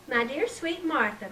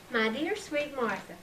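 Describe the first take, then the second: First: Mock-sweet sing-song; a touch of mocking sweetness. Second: Said in the usual way. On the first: A narrator's reading. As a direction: tease the love letter. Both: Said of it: "mocked Emily".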